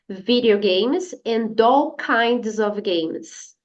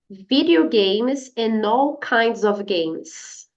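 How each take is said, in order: First: The D sound links straight into 'all'. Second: The N sound links straight into 'all'. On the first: "Agora a outra pronúncia" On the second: "usando a pronúncia and all"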